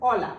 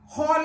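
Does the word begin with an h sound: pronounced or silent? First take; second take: silent; pronounced. First: The word starts directly with the vowel o. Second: The word starts with an audible h sound. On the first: The speaker calls it right. "അപ്പൊ അവിടെ എച്ച് silent ആണ്" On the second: The speaker calls it wrong. "ഹോല എന്നല്ല പറയുന്നത്"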